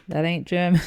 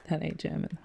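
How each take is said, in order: First: Louder, indignant disbelief; a startled, louder protest; surprised. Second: Much softer, half to himself; soft amused aside; quiet repeat. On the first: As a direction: catch the wrong flag out loud. Reacting to a wrong guess. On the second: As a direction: mutter it again after the laugh. Repeating after laughing. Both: Real, not acted.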